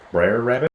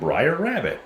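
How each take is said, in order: First: The first word sounds like 'brer'. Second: The first word sounds like 'briar'. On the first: The speaker calls it right. "apparently, it's" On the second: The speaker calls it wrong. "I always said Briar Rabbit"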